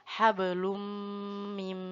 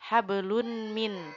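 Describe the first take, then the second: First: The n merges into a held m sound. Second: The first word ends with a clear n sound. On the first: The speaker calls it right. "tapi harus dibaca hablum mim masad" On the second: The speaker calls it wrong. "nun atau tanwinnya tidak dibaca. Misalnya hablun mi, hablun min"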